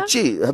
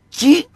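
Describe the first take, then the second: First: The word begins with a ts sound. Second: The word begins with a k sound. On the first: The speaker calls it right. "Πες το τσι τώρα" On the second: The speaker calls it wrong. "Γιατί το λέει κι τότε?"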